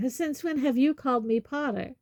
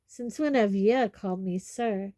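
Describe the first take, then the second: First: Put-on higher-pitched young man's comeback; pointed retort. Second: Stunned gruff question at normal pitch; stunned Hagrid. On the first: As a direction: throw the question straight back. Harry throws the question back. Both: A narrator's reading.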